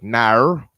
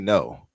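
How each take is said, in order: First: It is said in a Western Australian accent. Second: It is said in the speaker's own accent.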